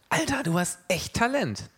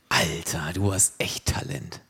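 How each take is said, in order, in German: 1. Der Ton ist ehrlich gemeint und bewundernd. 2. Der Ton ist spöttisch und sarkastisch. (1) "wenn man jemanden sieht, der irgendwas Besonderes kann" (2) "wie mein Bruder zu mir, als wir in meiner Sporthalle waren und ich den Ball an die Decke gebolzt habe"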